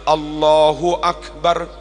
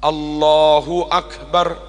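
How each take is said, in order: Both takes have the same delivery.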